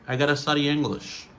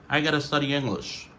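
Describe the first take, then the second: Both takes have the same delivery.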